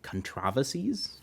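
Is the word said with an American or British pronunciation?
British. It is said with a British pronunciation.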